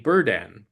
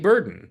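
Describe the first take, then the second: First: The second syllable is pronounced carefully and fully. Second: The second syllable is relaxed and reduced. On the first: This is the careful pronunciation nobody actually uses. The speaker calls it wrong. "if you were going to actually say how you pronounce the word burden, it would be burden" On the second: This is how people really say it. The speaker calls it right. "But no one ever says it that way"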